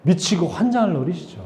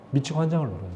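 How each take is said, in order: First: Said in the usual way. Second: "미치고 환장을 노려요" dropped to a soft, falling murmur; a hushed echo of the line; softer aside. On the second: Shown as a demonstration. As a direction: repeat "환장을" quietly as an aside.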